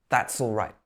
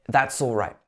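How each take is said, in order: Both takes have the same delivery.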